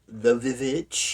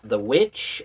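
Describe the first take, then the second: First: The title is said with a doubled v sound. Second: The title is said with a plain w sound.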